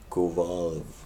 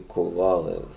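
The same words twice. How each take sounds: First: The name is said the American way. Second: The name is said the non-American way. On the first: "like you Yanks do it" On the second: "Where I'm from, we say"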